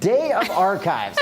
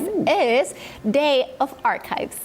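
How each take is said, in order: First: Slow deadpan echo. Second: Slow, hyped-up reveal; hyped announcement. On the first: Real, not acted. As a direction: repeat it unimpressed, slowly. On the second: Acted. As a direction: sell it like big news. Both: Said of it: "that landed with a thud".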